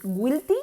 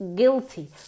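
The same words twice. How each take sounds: First: A w sound is heard after the g. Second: No w sound is heard after the g. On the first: The speaker calls it wrong. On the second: The speaker calls it right. "Como si la U no estuviese ahí"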